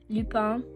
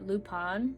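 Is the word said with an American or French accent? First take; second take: French; American. First: It is said with a French accent. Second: It is said with an American accent. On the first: The speaker calls it right. "I took back that American accent and tried to give it justice" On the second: The speaker calls it wrong. "I just said that in the most Americanized accent"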